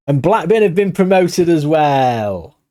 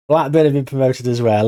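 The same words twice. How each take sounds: First: Excited. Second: Said in the usual way. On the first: Real, not acted. Manager celebrates promotion to his viewers, excited and drawn out. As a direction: savour the good news, stretching it out.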